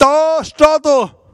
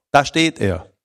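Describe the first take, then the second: First: High, loud, slow Swabian grandma voice; grandma on her deathbed in Swabian. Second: Said in the usual way. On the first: Retold or imitated. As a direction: point it out in broad Swabian like an old grandma. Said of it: "was meine Oma auf Schwäbisch gesagt hat".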